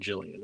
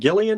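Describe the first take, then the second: First: The name begins with a soft J sound. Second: The name begins with a hard G sound. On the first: "Soft G" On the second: "hard G or not"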